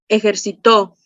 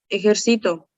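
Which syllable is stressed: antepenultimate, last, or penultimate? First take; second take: last; penultimate. First: The stress is on the last syllable. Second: The stress is on the second-to-last syllable. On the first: "es una palabra aguda. ¿Por qué? Porque su sílaba tónica está en la última" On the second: "grave. ¿Por qué es una palabra grave? Porque su sílaba tónica está en la penúltima"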